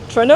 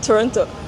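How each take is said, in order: First: The name is squeezed into two short syllables. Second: The name is said with all three syllables.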